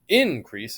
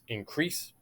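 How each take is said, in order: First: The stress is on the first syllable. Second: The stress is on the second syllable. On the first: The speaker calls it wrong. "It's not increase" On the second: The speaker calls it right. "it's increase"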